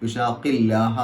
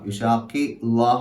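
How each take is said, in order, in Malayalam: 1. വാക്കുകൾ ചേർന്നതാണ്, ഇരട്ട ലാം ആണ്. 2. വാക്കുകൾ വേർതിരിഞ്ഞതാണ്, ഒറ്റ സാധാരണ ലാം ആണ്. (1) "യുഷാഖില്ലാഹ എന്നാണ് ഉച്ചരിക്കുക" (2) "യുഷാഖി ലാഹ എന്നല്ല"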